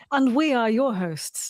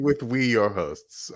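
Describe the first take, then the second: First: Grand presenter. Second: Mock grand. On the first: Pretend. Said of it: "That's what we should probably say". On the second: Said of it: "I like you saying".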